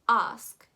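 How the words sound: It is said with a British accent. "which is totally okay if you want to go for a British tone"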